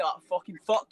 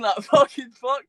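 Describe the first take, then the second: First: Said in the usual way. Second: Louder, slow, laughing repeat of fucking fuck; a stunned laugh at the memory; laughing disbelief. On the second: Retold or imitated.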